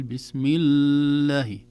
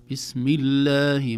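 First: 'الله' with the lam dragged very slowly, louder; wrong 'بسم الله'. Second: 'الله' recited slowly and louder, lam held just right; correct 'بسم الله'. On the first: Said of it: "ما نقول". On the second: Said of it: "كما نقول". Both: Shown as a demonstration.

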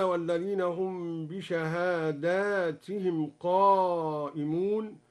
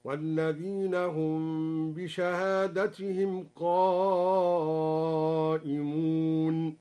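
First: Said in the usual way. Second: Very slow recital, "بشهادتهم" as "bishahadatihim"; short a after the d in "بشهادتهم"; singular reading. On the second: Shown as a demonstration. ("بشهادتهم" بالإفراد، ترتيلا) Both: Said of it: "قرأ الدوري بالإفراد هكذا".

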